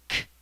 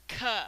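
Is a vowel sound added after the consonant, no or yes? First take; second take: no; yes. First: The consonant is said alone, without a vowel. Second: The consonant is followed by a short uh vowel. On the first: The speaker calls it right. "It's k" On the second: The speaker calls it wrong. "not k"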